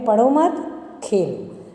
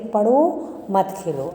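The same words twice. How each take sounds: First: There is a pause right after मत. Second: There is a pause right after पढ़ो.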